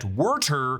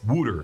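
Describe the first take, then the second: First: The first vowel sounds like 'er'. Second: The first vowel sounds like 'oo'. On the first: "closer to how they say it in Baltimore" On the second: "In the Philly suburbs, it's"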